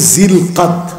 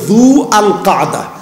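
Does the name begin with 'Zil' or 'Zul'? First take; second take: Zil; Zul. First: It starts with 'zil' and ends in 'qad'. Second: It starts with 'zu al' and ends in 'qada'. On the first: The speaker calls it wrong. "আমরা যেটাকে বলি" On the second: The speaker calls it right. "একেবারে শুদ্ধ ভাষায় হচ্ছে"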